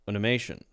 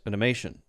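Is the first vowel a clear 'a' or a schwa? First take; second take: schwa; schwa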